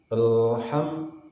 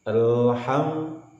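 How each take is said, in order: No difference in how they are said.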